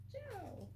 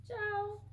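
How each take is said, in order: First: Higher, much softer Italian ciao, falling away; a quiet second try at ciao with an Italian accent. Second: Higher, bright amateur Italian ciao; Italian accent attempt. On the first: Trying the postcard greeting again, hushed Italian accent. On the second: Reading a postcard greeting to viewers, playful Italian accent. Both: Shown as a demonstration. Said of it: "I probably need to work on my accents".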